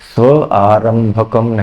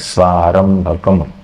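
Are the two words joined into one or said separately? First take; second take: separate; joined. First: The two words are said separately, not merged. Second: The two words are merged into one word. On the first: The words are split only to show their meaning. The speaker calls it wrong. "स्व आरंभकम नहीं बोलना है" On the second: This is how the verse is recited. The speaker calls it right. "उच्चारण करते समय दोनों को जोड़ के बोलना है"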